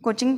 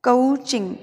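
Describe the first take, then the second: First: कोचिंग with a plain long O; कोचिंग with single pure vowel; common pronunciation. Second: कोचिंग with a gliding "uh-oo" vowel; कोचिंग with English O diphthong; improved pronunciation. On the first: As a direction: say कोचिंग as "ko-ching". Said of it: "बोलते हैं ना". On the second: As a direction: say कोचिंग as "kuh-oo-ching". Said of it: "थोड़ा सा और improvement करके". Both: Shown as a demonstration.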